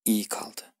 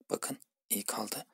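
First: Said in the usual way. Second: Hushed aside, much softer; soft whisper. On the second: Shown as a demonstration. Teacher whispers the ending to students. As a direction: whisper it almost under the breath.

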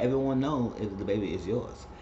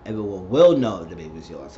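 First: Said in the usual way. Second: Will pressed and lower, correcting the line; stress on will. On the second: Shown as a demonstration. Fixing what Vanessa should have said, will stressed. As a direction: lean on will in everyone will know. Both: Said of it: "I was like".

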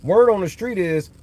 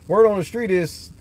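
The two takes are said the same way.

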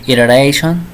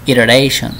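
The two takes are said the same way.

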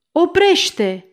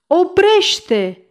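First: High, loud cry to halt; shouted stop. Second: High, loud repeated cry; shouted stop. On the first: The mayor shouts at the servant to halt, a loud high cry. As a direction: yell it out sharply to stop him. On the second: The mayor shouts a second time to stop the ladder, loud and high. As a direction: shout it again, just as urgent. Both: A narrator's reading. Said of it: "primarul strigă".

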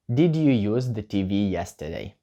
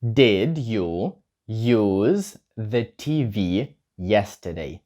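First: Said in the usual way. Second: Very slow, drawn-out question; very slow model. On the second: Shown as a demonstration. Teacher modelling the question very slowly for learners. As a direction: stretch every word for the class. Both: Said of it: "чи використовував ти телевізор вчора".

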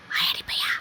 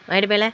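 First: Soft whisper to a pet; hushed, fully whispered pet talk. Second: Said in the usual way. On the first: Real, not acted. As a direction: whisper it teasingly, no voice.

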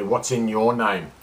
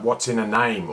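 First: Slow, with weight on "your"; stress on YOUR. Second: Said in the usual way. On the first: Real, not acted. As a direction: lean on "your" and stretch the phrase out. Contrasts "a name" with "your.

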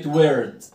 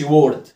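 First: "word" said with an "er" vowel, like "werd"; "word" with the right er sound; correct pronunciation. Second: "word" said with an "or" vowel, like "wawrd"; louder "word" with a mistaken or sound; mispronunciation demo. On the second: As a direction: say "word" wrongly, rhyming with "ford". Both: Shown as a demonstration. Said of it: "ما أقولش word".

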